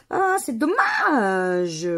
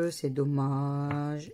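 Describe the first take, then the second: First: Slow drawn-out sigh of regret, a bit louder; loud drawn-out letdown over a losing ticket; disappointed. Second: Slow, lower, softer echo of dommage; a low, soft drawn-out sigh of resignation; resigned. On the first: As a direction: stretch out the ah in real disappointment. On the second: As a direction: let it sink quietly, resigned. Repeats the regret, low and soft. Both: Real, not acted.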